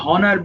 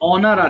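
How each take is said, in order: First: The word starts with an audible h sound. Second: The word starts with a vowel, no h. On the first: The speaker calls it wrong. "আমরা অনেকে ভুল করে হনার বলি" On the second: The speaker calls it right.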